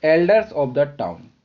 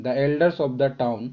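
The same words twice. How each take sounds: First: Slow repeat of the answer; slow dictation. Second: Slow, clear answer; slow dictation. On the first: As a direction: say the answer again slowly. (धीमे दोहराया गया उत्तर) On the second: (धीमे बोला गया उत्तर) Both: Shown as a demonstration.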